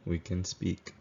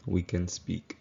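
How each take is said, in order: Both takes have the same delivery.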